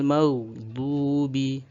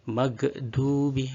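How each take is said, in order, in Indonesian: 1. Bunyi gh ditahan dengan halus tanpa pantulan sama sekali. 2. Bunyi gh diakhiri dengan pantulan bergema tambahan. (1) "supaya tidak ada pantulan atau tawalud" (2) "maka seperti itu salah"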